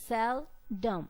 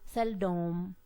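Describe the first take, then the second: First: The stress is on the first syllable. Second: The stress is on the second syllable. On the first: The speaker calls it right. "the pronunciation is on the first syllable sel" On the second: The speaker calls it wrong. "We are not going to give stress on the second syllable"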